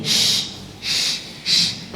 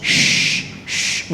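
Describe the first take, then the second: First: "shh" with lips drawn wide; sh pulled sideways. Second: "Shh" pushed through forward lips; the wrong "Shh" with pouted lips. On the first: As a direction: spread the lips for a thin "shh". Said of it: "tarik ke samping". ("shh" ditarik ke samping) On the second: ("Shh" dengan bibir maju, salah) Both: Shown as a demonstration.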